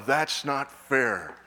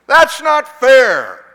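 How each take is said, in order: First: Said in the usual way. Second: Loud, high, drawn-out whiny protest; junior-high yell. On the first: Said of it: "wonderful opportunity to scream". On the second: Acted.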